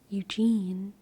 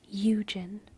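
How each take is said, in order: First: The second syllable is stressed, the first unstressed. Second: The first syllable is stressed, the second reduced. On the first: "Eugene is actually an I am, which is un unemphasized followed by emphasized" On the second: "If it were a real trochee, it would be Eugen"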